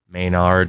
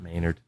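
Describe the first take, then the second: First: The name is said with a New England accent. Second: The name is said with a standard American accent. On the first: The speaker calls it right. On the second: The speaker calls it wrong.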